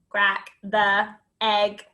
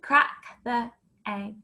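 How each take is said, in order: First: It is said in a flat, choppy robot voice. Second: It is said in an ordinary speaking voice. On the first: "Robot it" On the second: "Say it again"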